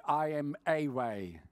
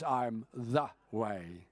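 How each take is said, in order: First: "I am a way" with a stretched, slow; the article "a" leaned on slowly, the wrong version; stress on a. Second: "I am the way" slow, lower, weighty; stress on the. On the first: Preacher contrasting the wrong words, slow stress on a. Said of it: "Jesus did not say". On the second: Preacher quoting Jesus, slow low stress on the. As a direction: lean on "the" slowly and low, the true words. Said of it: "He says". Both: Shown as a demonstration.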